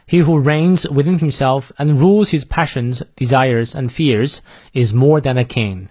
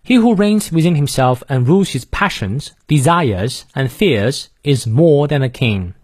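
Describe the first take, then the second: First: Said in the usual way. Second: British reading, dropping the R after vowels; British accent. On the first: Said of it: "再来一遍". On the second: Shown as a demonstration. Teacher demonstrating for learners, non-rhotic British accent. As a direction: read it in British English, no R in "fears" or "more". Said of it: "英式发音，元音后的而不念".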